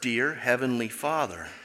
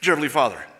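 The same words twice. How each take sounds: First: It is said at a normal, unhurried pace. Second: It is rushed out very fast and blurred.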